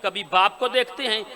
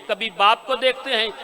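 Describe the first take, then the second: No difference in how they are said.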